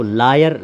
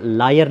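First: "लायर" with a rounded aw, as loy-yar; lawyer with "aw". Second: "लायर" with an open aa, as laa-yar; wrong "liar" vowel. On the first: Teacher correcting the word for an advocate, "लायर" said as law-yer. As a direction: round the first vowel of "लायर" into aw. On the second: Teacher showing the misreading of lawyer, "लायर" said as liar. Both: Shown as a demonstration. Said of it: "लायर नहीं बनाएंगे".

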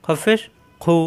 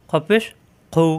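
No difference in how they are said.

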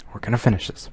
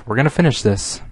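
First: Softer grim resignation; quieter, resigned. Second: Said in the usual way. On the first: Real, not acted. Reader tells listeners the story must be finished, softer and resigned.

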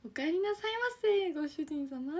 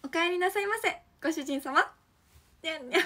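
First: High sugary welcome home master; maid cafe greeting. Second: High cute welcome home master; sweet maid voice with a meow; sugary maid cafe greeting. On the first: Pretend. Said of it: "メイドさんって". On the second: Acted. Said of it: "じゃあやりますね".

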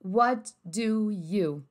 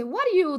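First: "What do you?" said very slowly, each word apart, "wɔt du u"; slow careful version. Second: "What are you?" run together as "waɾ i u" with a tapped r; flapped native question. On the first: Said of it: "ela vai tá querendo perguntar pra você". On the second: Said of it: "Quando a família fala pra você". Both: Shown as a demonstration.

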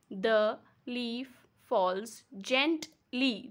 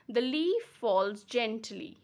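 First: The, leaf, falls, gent, ly as five slow beats; split into syllables. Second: Said in the usual way. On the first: Shown as a demonstration. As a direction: pause after each syllable, gently as gent-ly. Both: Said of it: "That means five".

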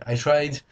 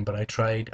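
First: I tried said higher and louder, insisting; emphatic repeat. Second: Said in the usual way. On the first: Real, not acted. Vlogger defending his bad accent, emphatic. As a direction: push I tried up, defiant.

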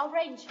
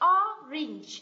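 First: Orange ending with an 'ay' vowel, like 'range'; wrong A sound. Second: Orange with a short i-like E in the second syllable; correct E sound. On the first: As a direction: mispronounce orange as 'o-raynge'. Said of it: "Âm này không phải là âm A". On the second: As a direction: say orange as 'OR-inj', clearly separated. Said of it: "mà đây là âm E". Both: Shown as a demonstration.

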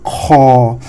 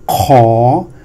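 First: "Kho" held long on a level tone; sustained, unrising "Kho"; flat tone. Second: "Kho" starting low and gliding up, held long; rising tone. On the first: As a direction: bring "Kho" down and keep it flat. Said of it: "pronounce the flat tone". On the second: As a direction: draw out "Kho" with the pitch rising. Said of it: "we pronounce with the rising tone". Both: Shown as a demonstration.

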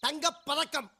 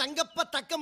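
First: "தங்கப் பதக்கம்", with பதக்கம் as one whole word; correct word break. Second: "தங்கப்ப தக்கம்", split before தக்கம்; wrong word break. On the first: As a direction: keep the ப with பதக்கம். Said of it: "அந்த படத்துக்கு பேர் தங்கப்ப தக்கம் இல்ல". (தங்கப் / பதக்கம் என்று சரியாகச் சேர்த்து) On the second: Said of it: "பேர் தங்கப்ப தக்கம் இல்ல". (தங்கப்ப / தக்கம் என்று தவறாகப் பிரித்து) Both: Shown as a demonstration.

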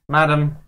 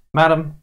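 Both takes have the same delivery.

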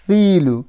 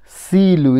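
First: Tongue out for the th in thilu; tha sound. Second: Silu said with a plain s, the mistake; wrong s sound. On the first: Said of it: "Instead of silu, it's thilu". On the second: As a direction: say Silu with an s, as the error to avoid. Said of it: "Instead of silu". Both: Shown as a demonstration.

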